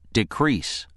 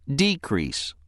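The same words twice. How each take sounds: First: The stress is on the second syllable. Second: The stress is on the first syllable. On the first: The word is used as a verb. "If word for is being used as a verb, ... it is pronounced decrease" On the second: The word is used as a noun. "The other pronunciation of word for is decrease"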